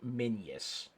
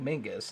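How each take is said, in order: First: The middle consonant is a y sound. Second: The middle consonant is a hard g sound. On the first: This is the older historical way to say it. "The historical pronunciation is something closer to Minius, kind of with that Y in yellow" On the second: This is the common modern way to say it. "That is a pretty common modern pronunciation"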